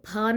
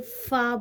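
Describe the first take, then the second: First: It begins with an aspirated ph sound. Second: It begins with an f sound. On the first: The speaker calls it wrong. "इसको फ नहीं बोलेंगे" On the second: The speaker calls it right. "फा बोलेंगे"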